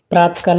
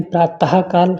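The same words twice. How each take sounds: First: प्रातःकाल said as "praat-kaal", no middle "ha"; visarg dropped. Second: प्रातः काल with a clear "praa-tah" before "kaal"; visarg sounded. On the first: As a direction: run प्रातःकाल together without the visarg. (प्रातःकाल बिना विसर्ग के, "प्रातकाल") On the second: (प्रातः काल में विसर्ग का "ह" साफ़ बोलें) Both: Shown as a demonstration. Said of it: "प्रातःकाल नहीं".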